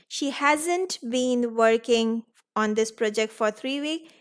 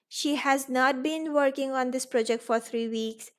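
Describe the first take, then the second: First: Has not is shortened to one syllable. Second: Has not is said as two full words. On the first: The speaker calls it right. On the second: The speaker calls it wrong.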